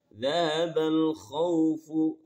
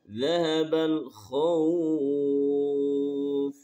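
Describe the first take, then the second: First: The phrase ends with its full vowel ending. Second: The phrase ends without its final vowel ending. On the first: The reader continues without stopping. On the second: The reader stops at this word.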